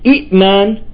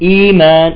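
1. تُنطق الهمزة. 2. تصبح الهمزة حرف مد طويل. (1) "كلمة إيمان" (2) "صارت إيمان"

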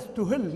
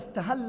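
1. الفعل مبني للمجهول، ويُنطق مثل ustuhilla. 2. الفعل مبني للمعلوم، ويُنطق مثل istahalla. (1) "وفي ضبط آخر إذا استهل مبني للمجهول" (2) "المولود فاعل"

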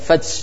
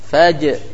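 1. Konsonannya condong ke bunyi s mendesis. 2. Konsonannya bunyi j bersuara yang jelas.

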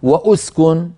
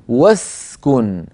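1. بعد 'w' تأتي همزة ثم حركة. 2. ينتقل مباشرة من 'w' إلى 's'. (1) "ولا أقول له وأسكن" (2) "أقول واسكن، وس فأنتقل من الواو إلى السين"

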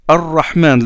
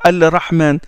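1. Le L se fond dans un R doublé. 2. Un L clair se prononce avant le R. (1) "Donc le lam entre dans le ra" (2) "On ne dit pas Al-Rahman"

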